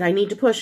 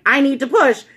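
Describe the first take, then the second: First: Said in the usual way. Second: Higher, louder insistent outburst; retold desperate yell. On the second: Labouring mother insisting to the doctor, retold yell. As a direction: re-enact a desperate demand, raised voice. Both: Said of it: "And I screamed bloody murder".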